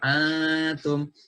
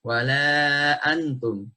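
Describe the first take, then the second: First: "antum" with the n hidden and nasal; ikhfa hidden nun. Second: Slow "wala antum" with a fully clear n; wrong clear nun. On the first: Teacher showing the hidden nun to students. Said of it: "Dibaca samar". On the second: Teacher showing the wrong clear nun to students. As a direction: spell out the n in "antum" too plainly. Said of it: "Bukan dibaca". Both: Shown as a demonstration.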